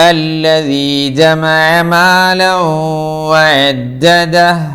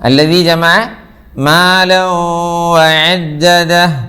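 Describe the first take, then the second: Both takes have the same delivery.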